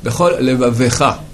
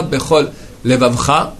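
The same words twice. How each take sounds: First: Levavecha with a clear e before -cha; shva voiced. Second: Levavcha, no vowel before -cha; shva dropped. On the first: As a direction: sound the e in Levavecha. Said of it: "la fin". (Levavecha avec le e prononcé) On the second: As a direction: swallow the e in Levavcha. (Levavcha sans voyelle) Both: Shown as a demonstration.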